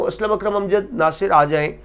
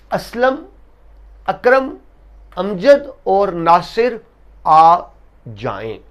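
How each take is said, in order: First: Aslam Akram Amjad Nasir run together in one string; without pauses. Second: High Aslam, Akram, Amjad, each set apart by a pause; pause between names. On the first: Teacher shows the confusion when names are said without stopping. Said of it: "अगर मैं रुके बगैर को". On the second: Teacher calling four students by name, pausing after each. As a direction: call out Aslam, अकरम, अमजद और Nasir one by one. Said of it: "लेकिन अगर मैं रुके बगैर को". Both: Shown as a demonstration.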